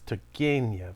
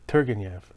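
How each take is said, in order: First: The name is said in a Russian-style way. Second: The name is said in an anglicized way. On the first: The speaker calls it right. "It's Turgenev" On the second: The speaker calls it wrong. "Western people would look at that name and say Turgenev or something"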